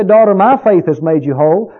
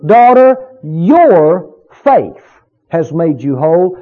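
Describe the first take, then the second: First: "my" picked out, the rest run on evenly; stress on MY. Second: "your faith" drawn out and set apart by pauses; stress on YOUR FAITH. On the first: Preacher voices what Jesus didn't say, stress on "my". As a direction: lean on "my" as the rejected version. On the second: Preacher shows where Jesus put the emphasis, stress on "your faith". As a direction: call out "Daughter", then land firmly on "your faith". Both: Shown as a demonstration. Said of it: "Where did Jesus put the emphasis".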